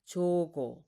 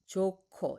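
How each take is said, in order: First: The second consonant is a plain unaspirated g. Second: The second consonant is a strongly aspirated k. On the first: The speaker calls it wrong. "not jogo" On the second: The speaker calls it right. "aspirated to ko"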